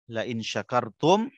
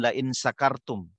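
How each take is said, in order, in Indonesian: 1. Kata itu dimulai dengan bunyi 'sh'. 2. Kata itu dimulai dengan bunyi 's' biasa.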